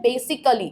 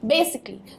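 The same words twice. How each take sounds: First: It ends with a full 'ally' sound. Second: It ends with a short 'ly' sound. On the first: The speaker calls it wrong. "बेसिक अली जो है वो बिल्कुल गलत है" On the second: The speaker calls it right. "एल double एल वाई का sound आएगा"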